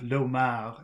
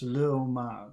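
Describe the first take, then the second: First: The article merges into the noun as one word. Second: The article is a separate extra syllable. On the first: The speaker calls it wrong. "Instead of l'homard" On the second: The speaker calls it right. "it's le homard"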